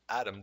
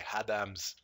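First: The name starts with a vowel, no final S. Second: The name starts with H and ends in S. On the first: The speaker calls it right. "instead of saying Adam" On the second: The speaker calls it wrong. "they say Hadams"

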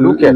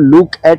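First: It is said as one joined word. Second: It is said as two separate parts. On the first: "আর অনেকে বলছে লোকেট" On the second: "কেউ লুক এট বলছে আলাদা করে"

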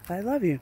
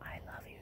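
First: The phrase is spoken aloud, louder. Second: The phrase is whispered quietly. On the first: "So try to get a little louder" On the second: "You can whisper, shh, quiet"

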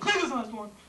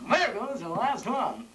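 First: It is said in a stunned, shocked way. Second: It is said in a wistful, longing way.

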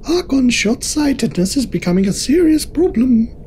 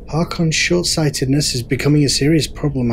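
First: It is read in a put-on character voice. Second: It is read in the speaker's natural voice.

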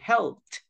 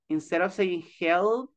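First: The ending is a short 't' sound. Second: The ending is an extra 'ed' syllable. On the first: The speaker calls it right. "we say" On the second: The speaker calls it wrong. "instead of saying"

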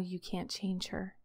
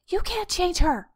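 First: It sounds calm, curious and compassionate. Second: It sounds tense, desperate and controlling. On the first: It comes from wisdom that accepts what cannot change. The speaker calls it right. "has a curious, compassionate understanding of that information" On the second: It comes from a need to cling to control. The speaker calls it wrong. "wants to desperately cling to and control my life"

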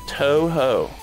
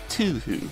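First: Both vowels are said as 'oh'. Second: Both vowels are said as 'oo'. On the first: It is the proper pronunciation. The speaker calls it right. "It is Toho. Like toe and then ho" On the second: It is a joking mispronunciation. The speaker calls it wrong. "I say that as, like, a joke"

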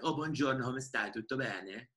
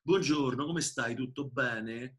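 First: It is said in a Florentine accent. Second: It is said in a Roman accent.

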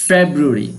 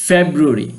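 No difference in how they are said.

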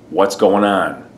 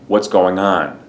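First: The word 'going' ends without a G sound. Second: The word 'going' ends with a clear G sound. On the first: "Or you would drop the G, this does sound informal" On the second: "So instead of saying, how are you doing, you'd say"

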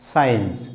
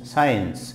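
First: The c is silent. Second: The c is silent.

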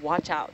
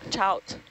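First: The phrase is said in full, two syllables. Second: The phrase is clipped to one short syllable.

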